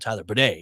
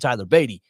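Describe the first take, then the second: First: The surname sounds like 'bidet'. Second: The surname sounds like 'Beatty'. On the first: This is how the player says his own name. The speaker calls it right. "It is now Tyler Bidet" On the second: This is the old, mistaken version of the name. The speaker calls it wrong. "I was always calling him Tyler Beatty"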